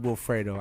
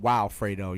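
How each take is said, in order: First: The name begins with a plain 'will' sound. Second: The name begins with a 'wild' sound. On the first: "I don't pronounce it Wilfredo" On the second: "I pronounce it Wildfredo"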